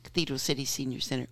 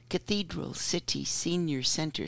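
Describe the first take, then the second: First: It is said quickly. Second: It is said at a normal speed.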